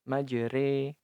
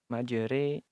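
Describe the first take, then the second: The two takes are said the same way.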